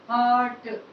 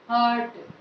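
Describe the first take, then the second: The two takes are said the same way.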